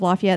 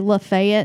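First: It is said with a standard US accent. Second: It is said with a Southern US accent.

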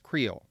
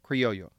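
First: The word is pronounced the English way. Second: The word is pronounced the Spanish way. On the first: "In English, this is pronounced Creole" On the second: "the word in Spanish is pronounced criollo"

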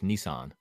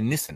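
First: It is said with an American pronunciation. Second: It is said with an Australian pronunciation. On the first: "Over here it's Nissan" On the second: "Australians would say Nissan"

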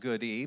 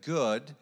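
First: The name is said with two syllables. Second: The name is said with one syllable. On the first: "some pronounce it Goody" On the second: "but Good"

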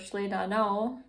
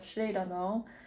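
First: The stress falls on a later syllable. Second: The stress falls on the first syllable. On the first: The speaker calls it wrong. "I want to go šledano" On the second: The speaker calls it right. "instead of šledano"

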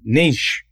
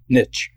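First: It is said the Canadian way. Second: It is said the American way.

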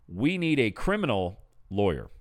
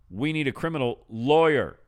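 First: The stress is on criminal. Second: The stress is on lawyer.

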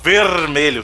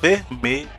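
First: The R is strong, in a Greater São Paulo accent. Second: The R is aspirated, from the back of the throat.

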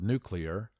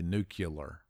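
First: The word is said as new-clee-er. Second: The word is said as new-cue-ler. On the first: The speaker calls it right. "in typical traditional fashion" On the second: The speaker calls it wrong. "but he would say nuclear"

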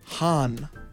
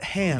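First: The name is said in Lando's way. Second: The name is said in the usual way. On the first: This is how one character says the name. The speaker calls it wrong. "Lando. Says Han" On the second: This is how everyone else says the name. The speaker calls it right. "And not Han"

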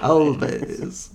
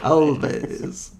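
First: The word is said in a vampire-like voice. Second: The word is said in a vampire-like voice.

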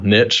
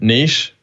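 First: It is said in an American accent. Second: It is said in a British accent.

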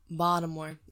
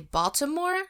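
First: The name is said the way locals say it. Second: The name is said the way outsiders say it. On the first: The speaker belongs to the city. The speaker calls it right. "It's Baltimore" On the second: The speaker is not from the city. The speaker calls it wrong. "when you go out there and you say Baltimore, they look at you and want to literally throw like cheese at your face"

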